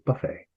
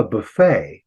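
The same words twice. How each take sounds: First: "buffet" stressed on the first syllable, BUFF-ay; British pronunciation. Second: "buffet" stressed on the last syllable, buh-FAY; French-derived "buffet", stress at the end; American pronunciation. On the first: Teacher showing how Britain says it, BUFF-ay for "buffet". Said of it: "They move the accent forward". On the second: Teacher giving the American word for contrast, buh-FAY for "buffet". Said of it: "which is really a French word". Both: Shown as a demonstration.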